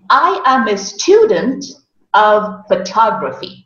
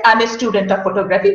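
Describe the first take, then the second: First: STUdent and phoTOGraphy stressed, phrases set apart; correct syllable stress. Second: "I'm a student of photography" fast on one level; monotonous. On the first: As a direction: lean on STU and TOG in "student of photography", pausing before "of". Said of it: "the right way to say that sentence". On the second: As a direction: rattle off "student of photography" with no syllable stressed. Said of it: "which was very monotonous". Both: Shown as a demonstration.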